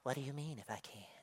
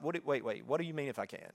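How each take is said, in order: First: The question is asked in a calm, plain way. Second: The question is asked in an incredulous, exasperated way. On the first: It is a simple request for clarification. "He might have said it like" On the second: Doubting the ability is absurd. "are you serious? This is my interpretation and my tonality"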